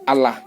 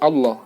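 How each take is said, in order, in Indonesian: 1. Lam-nya tipis, terdengar seperti 'la'. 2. Lam-nya tebal, terdengar seperti 'lo'. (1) "Yang mengucapkan la itu berarti dia tidak tahu ini nih" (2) "seharusnya Allah"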